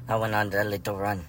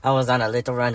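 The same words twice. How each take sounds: First: Said in the usual way. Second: "I" punched, louder and higher; stress on I. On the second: Shown as a demonstration. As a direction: lean hard on the word "I". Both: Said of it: "when I say I".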